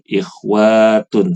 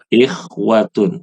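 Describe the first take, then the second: First: The vowel after the w is long. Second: The vowel after the w is short. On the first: The speaker calls it wrong. "Jangan dibaca ikhwatun, salah" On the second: The speaker calls it right. "Yang benar adalah pen pendek. Jadi bacanya ikhwatun"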